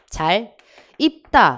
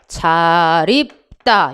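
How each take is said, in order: First: The two words are said separately with a break. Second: The final consonant links into the next word. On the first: "원래 두 단어 잘 끊고" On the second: "연음도 가능하다"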